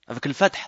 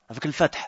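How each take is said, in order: The two takes are said the same way.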